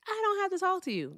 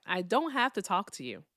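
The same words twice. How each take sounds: First: "don't" pitched high and leaned on; stress on DON'T. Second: Said in the usual way. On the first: Real, not acted. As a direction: push "don't" up sharply, scolding. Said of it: "If you can't behave yourself". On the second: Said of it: "I just wanna let them know that".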